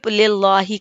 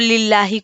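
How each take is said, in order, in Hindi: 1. L की आवाज़ मोटी और भारी है। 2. L की आवाज़ हल्की और पतली है।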